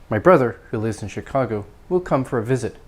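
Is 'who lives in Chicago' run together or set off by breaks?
set off. The clause is set off, quicker and lower in pitch. It only adds extra information. "It's kind of quicker, uh, maybe lower in volume and intonation"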